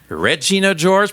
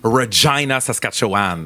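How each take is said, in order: First: Regina does not rhyme with vagina. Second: Regina rhymes with vagina. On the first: It names the movie character. "On dit Regina George" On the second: It names the city. "Comme vagina? Oui"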